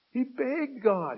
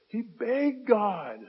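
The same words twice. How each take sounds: First: Slow, even higher, he stressed; higher emphatic repeat. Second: Slow, higher stress on begged; emphatic repeat. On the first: Preacher repeating Paul begged God, higher still. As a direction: push he up high and slow. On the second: Preacher stressing that Paul begged God, slow and high. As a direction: lean into begged, drawn out. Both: Shown as a demonstration. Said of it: "repeated line".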